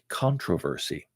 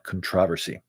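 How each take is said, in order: First: It is said with an American pronunciation. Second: It is said with a British pronunciation. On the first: "In America, ... they would pronounce it" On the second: "the English people like to go ahead and talk about"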